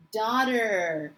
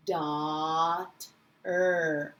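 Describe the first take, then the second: First: Said in the usual way. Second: "Dot, er" slowly split, daught, pause, er; low, drawn-out phonics "Dot", then separate "er"; sounded out. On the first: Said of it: "how that says daughter". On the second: Shown as a demonstration. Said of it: "That's a special sound".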